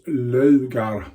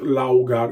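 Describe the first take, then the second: First: The first vowel is a rounded 'ö'. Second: The first vowel sounds like 'ow'. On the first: The speaker calls it right. "It's Lögar" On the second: The speaker calls it wrong. "not Laugar"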